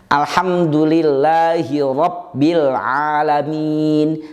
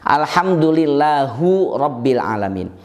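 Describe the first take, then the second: First: The word lillah ends in an i vowel. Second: The word lillah ends in a u vowel. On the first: The speaker calls it right. "harokatnya kasrah atau e" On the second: The speaker calls it wrong. "jelas keliru"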